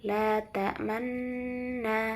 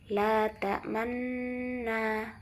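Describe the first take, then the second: The two takes are said the same way.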